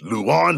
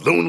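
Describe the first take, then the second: First: The name is said with two syllables. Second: The name is said with one syllable. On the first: The speaker calls it right. "Submission Ace Luan Lacerda" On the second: The speaker calls it wrong. "it looks like Loon"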